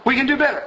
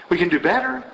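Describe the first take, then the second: First: "We can do better" pitched high with conviction; "We can do better" raised high and emphatic; emphatic repeat. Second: Said in the usual way. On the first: Real, not acted. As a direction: drive home "We can do better".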